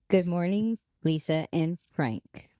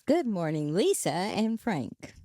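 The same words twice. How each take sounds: First: It is read evenly without special emphasis. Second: One word is read with extra emphasis.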